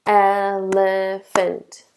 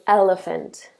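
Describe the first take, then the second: First: "elephant" slow, split into three beats: el-e-phant; syllables clapped out. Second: Said in the usual way. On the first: Shown as a demonstration. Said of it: "three syllables". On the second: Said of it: "And so I do elephant".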